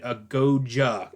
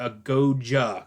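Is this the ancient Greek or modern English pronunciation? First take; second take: modern English; modern English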